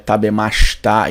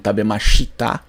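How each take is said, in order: First: The i after sh is silent. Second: The i after sh is clearly heard. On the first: The speaker calls it right. "ela é tabemashita" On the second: The speaker calls it wrong. "e não tabemashita"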